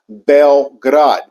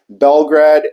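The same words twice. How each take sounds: First: The name is said with its local Serbian pronunciation. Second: The name is said with the usual English pronunciation. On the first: This is how people from the country say it. "It's actually pronounced Belgrade" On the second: This is how outsiders say it. "for the people that aren't from around here, they simply say Belgrade"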